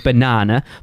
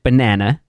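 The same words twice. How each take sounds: First: It is said with a non-American accent. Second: It is said with an American accent. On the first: This is how the speaker's own group says it. "like we do say banana" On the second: Someone else said it this way. "as an American, you pronounced it banana"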